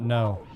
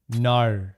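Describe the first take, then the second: First: The word is said in a plain, non-Australian accent. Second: The word is said in an Australian accent. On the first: The speaker calls it wrong. "Apparently it's not no" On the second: The speaker calls it right. "She taught me how to say no properly"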